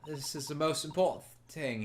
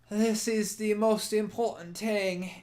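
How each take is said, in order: First: It is said in the reader's plain voice. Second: It is said in a put-on Irish accent.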